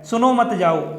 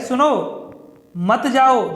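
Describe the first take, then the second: First: It is said without any pause. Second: There is a pause after 'सुनो'.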